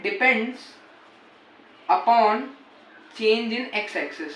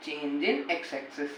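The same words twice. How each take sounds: First: Slow, word by word dictation; dictation pace. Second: Slower and much softer repeat; fading dictation. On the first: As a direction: read it out slowly for notes. (धीमे-धीमे लिखवाना) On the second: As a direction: let the repeat die away softly. (धीमी, बहुत हल्की दोहराई) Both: Shown as a demonstration. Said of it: "dictating to students".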